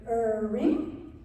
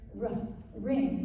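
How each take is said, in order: First: The letter sound is a drawn-out 'er'. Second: The letter sound is a short 'ruh'. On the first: The speaker calls it wrong. "Do we hear er ring? No" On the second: The speaker calls it right. "we hear rough ring"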